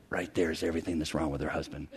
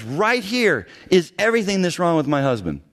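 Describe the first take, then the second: First: Very low, hushed retold aside; imitating a hushed, confidential report; confidential whisper. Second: Emphatic, slightly raised retold announcement; imitating an emphatic accuser; emphatic presentation. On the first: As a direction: murmur it secretly into a colleague's ear. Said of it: "I whispered in his ear". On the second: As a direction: present it as damning proof. Retells woman presenting her scroll.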